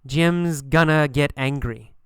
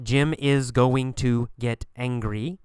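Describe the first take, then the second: First: "Jim's gonna" blended, falling tune, slowly; reduced going to. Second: "is going to" word by word, rising; careful full forms. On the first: Teacher modelling normal speech, slow reduced "Jim's gonna". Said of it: "we say". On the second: Teacher showing what not to say, full "is going to". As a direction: say "Jim is going to" slowly, nothing contracted. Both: Shown as a demonstration.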